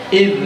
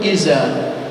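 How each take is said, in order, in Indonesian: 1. Huruf tengahnya bunyi th lembut bersuara. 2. Huruf tengahnya bunyi z biasa.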